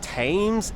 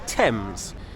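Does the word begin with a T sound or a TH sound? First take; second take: TH sound; T sound. First: The word begins with a soft th sound. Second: The word begins with a hard t sound. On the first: The speaker calls it wrong. "It's not" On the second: The speaker calls it right. "it's T-T-T"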